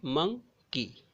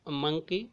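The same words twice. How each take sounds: First: "monkey" in two beats, मं, pause, की; split into syllables. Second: Said in the usual way. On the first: Shown as a demonstration. Teacher demonstrating two syllables, "monkey" split as मं... की. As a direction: separate "monkey" clearly after मं. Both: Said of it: "इस तरह से हमको दो बार बोलना पड़ रहा है".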